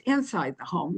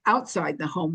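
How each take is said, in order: First: "inside" picked out as the opposite case; stress on inside. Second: "outside" picked out against its opposite; stress on outside. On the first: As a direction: lean on "inside" to mark the contrast. Contrasts working inside with outside. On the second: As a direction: lean on "outside" to set up a contrast. Contrasts working outside with inside. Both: Real, not acted.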